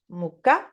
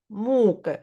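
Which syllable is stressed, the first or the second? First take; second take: second; first. First: The stress is on the second syllable. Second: The stress is on the first syllable. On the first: It means flour. "Quand ce mot est accentué sur la deuxième syllabe" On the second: It means suffering or torture. "Quand ce mot est accentué sur la première syllabe"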